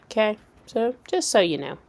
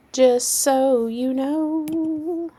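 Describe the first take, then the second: First: Said in the usual way. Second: High, slow sing-song drawl. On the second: Pretend. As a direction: stretch it out in a silly voice. Repeated in put-on voice.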